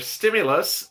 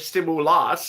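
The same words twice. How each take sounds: First: The word is said in its ordinary way. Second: The word is said with a cow-like moo sound.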